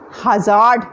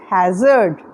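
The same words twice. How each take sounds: First: "hazard" as ha-ZAAD, long second vowel; mispronounced "hazard". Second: "hazard" as HAZ-erd, low and slow; corrected "hazard". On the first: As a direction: draw out a full "aa" in the end of "hazard", slowly. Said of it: "it's not hazard". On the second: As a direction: stress the first syllable of "hazard", weaken the second. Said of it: "it's hazard". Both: Shown as a demonstration.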